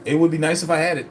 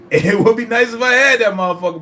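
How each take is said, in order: First: Said in the usual way. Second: Higher and louder, bursting with glee; excited outburst. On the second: Real, not acted. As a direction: repeat it, now thrilled and much louder. Laughing, repeats line louder.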